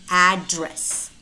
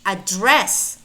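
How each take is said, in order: First: Strong AD in address; stress on first syllable. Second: Weak start, strong DRESS in Address; stress on second syllable. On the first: Teacher explains the noun, first-syllable stress in address. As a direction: address as "AD-dress". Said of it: "If it is the noun". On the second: Teacher explains the verb, second-syllable stress in Address. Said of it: "might be used either as a verb". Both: Shown as a demonstration.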